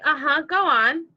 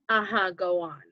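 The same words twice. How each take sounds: First: It is said in an encouraging tone. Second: It is said in a rude tone.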